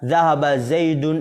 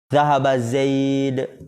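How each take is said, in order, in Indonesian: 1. Nama itu diakhiri dengan bunyi n tambahan. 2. Nama itu diakhiri tanpa bunyi n tambahan. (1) "Dilanjutkan kan?" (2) "Tapi kalau antum berhenti itu kan enggak tanwin"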